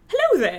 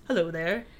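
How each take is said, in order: First: It is said expressively, like the famous Obi-Wan line. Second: It is said in a flat, plain way.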